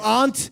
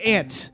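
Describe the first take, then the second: First: It is said with a British-style vowel. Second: It is said with an American-style vowel. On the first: This is the posh version the speaker rejects. The speaker calls it wrong. "I don't do aunt" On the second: This is the speaker's own everyday version. The speaker calls it right. "I do aunt. I'm a goddamn American"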